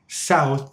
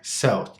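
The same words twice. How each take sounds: First: The vowel sounds full and open. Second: The vowel sounds relaxed and smaller. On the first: "words like south" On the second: "sound more like south"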